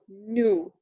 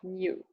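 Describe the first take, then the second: First: The vowel has no y sound before it. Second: The vowel has a y sound before it. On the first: "just U"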